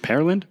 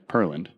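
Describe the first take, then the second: First: PEARLAND with first syllable like the fruit "pear"; pronunciation check. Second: PEARLAND with first syllable like "purr"; alternative pronunciation. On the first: Host checks the town's name, Pearland said "PAIR-lund". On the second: Host settles on the town's name, Pearland said "PUR-lund". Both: Shown as a demonstration. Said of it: "I think that's how you say it".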